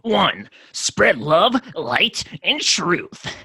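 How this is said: It is said in a gnarly old-detective voice.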